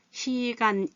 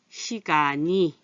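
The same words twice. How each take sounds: First: 시간이 broken into "시간, 이", pitched higher; high, separated "시간 / 이" with no linking; wrong unlinked reading. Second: 시간이 joined as "시가니"; smoothly linked "시가니" for 시간이; correct linked reading. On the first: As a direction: keep 이 apart from 시간: "시-간-이". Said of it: "이렇게 안 읽고". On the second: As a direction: slide the ㄴ onto 이: "시-가-니". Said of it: "이렇게 읽어요". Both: Shown as a demonstration.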